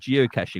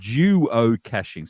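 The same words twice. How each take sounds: First: The word is said at a fast pace. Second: The word is said at a slow pace. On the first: "the way you say it" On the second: "if you say it slower"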